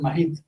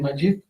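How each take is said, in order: First: The name is said with a local Spanish pronunciation. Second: The name is said with its original pronunciation. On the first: This is how people locally sometimes say it. "Aquí a veces la gente dice" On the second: This is the well-pronounced original form. "mucha gente pronuncia muy bien"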